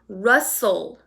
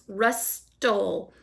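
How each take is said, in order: First: The T in the middle is not pronounced. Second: The T in the middle is clearly pronounced. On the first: The speaker calls it right. "When I say the word, it sounds like rustle" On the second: The speaker calls it wrong. "But we don't say it that way"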